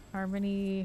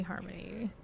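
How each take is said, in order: First: Said in the usual way. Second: Repeated much softer, trailing off; softer echo. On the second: Real, not acted. Streamer echoing the item name to himself, much softer. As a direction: murmur it to yourself.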